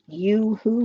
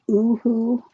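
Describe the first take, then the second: First: The word begins with a y sound. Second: The word begins with a plain vowel sound. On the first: The speaker calls it right. "it is pronounced Yoo-Hoo" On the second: The speaker calls it wrong. "not Ooh-Hoo"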